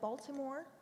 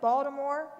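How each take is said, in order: First: It is said in a standard accent. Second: It is said in a local Baltimore accent. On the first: "instead of Baltimore" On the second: "I will say things like Baltimore"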